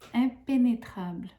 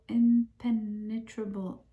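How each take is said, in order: First: The word is pronounced with French sounds. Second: The word is pronounced with English sounds. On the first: "in French" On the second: "I just can't pronounce it to save my life"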